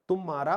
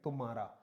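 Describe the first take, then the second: First: The first syllable is stressed and lengthened. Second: The first syllable is light and unstressed. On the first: The speaker calls it wrong. "उच्चारण में बल होने की वजह से" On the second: The speaker calls it right. "लघु करेंगे"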